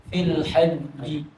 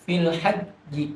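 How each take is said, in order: The two takes are said the same way.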